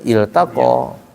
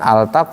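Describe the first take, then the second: First: The word begins with an 'i' vowel. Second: The word begins with an 'a' vowel. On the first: The speaker calls it right. "dibacanya il taqa" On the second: The speaker calls it wrong. "Bukan al taqa, bukan"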